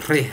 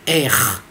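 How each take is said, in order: First: The r is made with the tongue tip. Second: The r is made in the throat. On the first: "Le R alvéolaire, c'est celui qui est tourné avec les alvéoles" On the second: "Le R grasseillé, c'est celui-là. Guttural"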